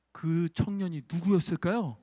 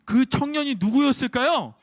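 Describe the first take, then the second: First: Said in the usual way. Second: Louder repeated question. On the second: Shown as a demonstration. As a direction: ask the children again, louder. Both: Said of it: "다시".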